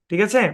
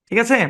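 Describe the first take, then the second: No difference in how they are said.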